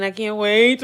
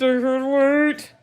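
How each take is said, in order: First: Said in the usual way. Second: Slow, high, drawn-out squeal of glee; stretched excitement. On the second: Real, not acted. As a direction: savor each word, giddy. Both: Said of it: "I'm so excited".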